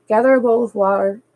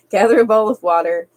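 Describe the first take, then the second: First: Said in the usual way. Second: Real giggle breaking into the words; laughing through it. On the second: Real, not acted. Streamer cracking up mid-reading, laughing. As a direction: let the laugh spill over the line. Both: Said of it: "I can't even talk tonight".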